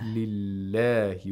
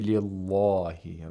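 First: The L in Allah is light and thin. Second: The L in Allah is heavy and full. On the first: The speaker calls it right. "if it's a kasra, we pronounce it with tarqiq" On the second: The speaker calls it wrong. "We don't say"

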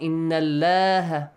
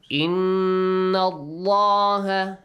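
First: The L in Allaha sounds light and thin. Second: The L in Allaha sounds heavy and full. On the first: The speaker calls it wrong. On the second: The speaker calls it right. "the lam in the word Allah will be Heavily pronounced"

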